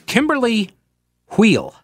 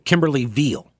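First: The surname begins with a W sound. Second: The surname begins with a V sound.

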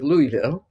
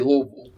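First: It is pronounced the way outsiders say it. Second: It is pronounced the way locals say it. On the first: The speaker is new to the place. The speaker calls it wrong. "instead of Louisville" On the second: The speaker has lived there a long time. The speaker calls it right. "I've been here long enough to say Louisville"

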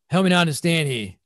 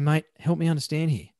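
First: It is said harshly, like a commander. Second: It is said calmly and moderately.

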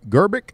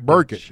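First: The name begins with a G sound. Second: The name begins with a B sound. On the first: The speaker calls it wrong. "is that how you say it?" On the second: The speaker calls it right. "Starts with a B, not a G"

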